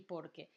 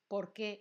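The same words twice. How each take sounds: First: "por qué" as one word, lower, falling after por; stress on POR. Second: "por qué" with the weight on qué; stress on QUÉ. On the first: Teacher naming the two common forms, "por qué" stressed on por, falling. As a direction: stress por and let qué drop softly in "por qué". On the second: Teacher naming the two common forms, "por qué" stressed on qué. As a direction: make qué the strong word in "por qué". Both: Shown as a demonstration. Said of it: "fíjate que no lo pronuncio igual".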